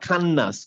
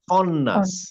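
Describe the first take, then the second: First: The first vowel is a light, open 'a'. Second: The first vowel is a heavy, 'o'-like sound. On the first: The speaker calls it wrong. "নট খান্নাস" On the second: The speaker calls it right.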